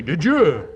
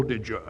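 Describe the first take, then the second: First: Said in the usual way. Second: "Did you?" said much softer and lower, understated; quiet and simple. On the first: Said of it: "finally you say". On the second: Shown as a demonstration. Writer showing the actor a quiet "Did you?". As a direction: drop it to a hush: "Did you?". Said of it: "Just a plain, quiet, simple".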